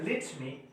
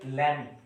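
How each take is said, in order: First: It is said in a British accent. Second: It is said in an American accent.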